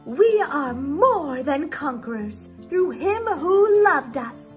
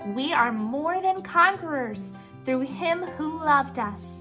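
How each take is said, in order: First: It is said in a put-on fancy voice. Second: It is said in a plain, natural voice.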